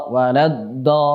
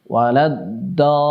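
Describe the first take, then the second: Both takes have the same delivery.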